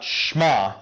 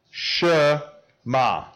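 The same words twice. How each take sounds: First: "shma" run together as one syllable; wrong pronunciation. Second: "Shema" slowly in two parts, She, pause, ma; syllable-by-syllable pronunciation. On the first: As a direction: say "shma" with no vowel after the sh. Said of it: "Not shma". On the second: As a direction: sound out "Shema" for learners to repeat. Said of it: "You guys say that?". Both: Shown as a demonstration.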